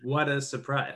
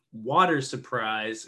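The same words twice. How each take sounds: First: "what a surprise" with no R, short open "what a"; low, soft "what a surprise". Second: "water surprise" slow and low, R sounded in "water"; deliberate, low American "water". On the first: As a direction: say "what a" as two words, no R. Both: Shown as a demonstration. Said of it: "instead of".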